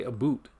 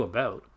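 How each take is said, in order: First: "a boot" with a long oo vowel. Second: Said in the usual way. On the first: Shown as a demonstration. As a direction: make "a boot" rhyme with shoot. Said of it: "does any Canadian person say". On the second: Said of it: "we do about".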